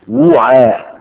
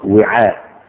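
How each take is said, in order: First: It begins with w followed by a u vowel. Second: It begins with w followed by an i vowel. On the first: "بضم الواو" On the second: "يقرأ وعاء"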